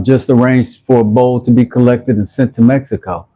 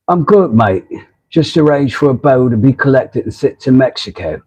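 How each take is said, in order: First: Said in the usual way. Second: Badly faked English accent; terrible British accent. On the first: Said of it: "says Rob". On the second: Reading viewer Rob's comment back in his accent, terrible British accent. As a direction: do a poor imitation of a British accent. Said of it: "Terrible accent".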